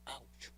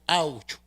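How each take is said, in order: First: "Ouch" breathed out very softly; a tiny hurt "Ouch", barely voiced; gentle "Ouch" as if someone stepped on you; softer ouch. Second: Ouch. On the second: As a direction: yelp "Ouch" at full voice. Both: Shown as a demonstration. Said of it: "No, más suavecito así".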